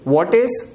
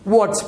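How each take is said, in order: First: Both words are said in full. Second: The words are joined into one contracted syllable.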